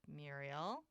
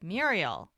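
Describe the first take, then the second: First: "Muriel" said very softly, low, rising at the end; gentle questioning name. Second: "Muriel" said louder with a falling end; firm interrupting name. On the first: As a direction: say "Muriel" as a quiet, careful question. He leans in, says her name. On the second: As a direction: cut in with a firm, emphatic "Muriel". He cuts in on her pleading. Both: Retold or imitated.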